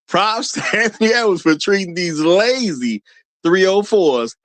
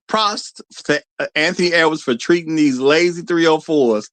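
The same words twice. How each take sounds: First: It is read in an aged, wise-sounding voice. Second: It is read in his normal speaking voice.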